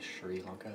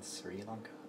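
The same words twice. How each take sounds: First: The name is said with an exaggerated foreign sound. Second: The name is said with a plain English sound.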